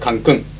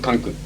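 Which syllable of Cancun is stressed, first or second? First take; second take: second; first. First: The stress is on the second syllable. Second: The stress is on the first syllable. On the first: The speaker calls it right. "is with accent here. There is an accent mark" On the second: The speaker calls it wrong. "It's not Cancun"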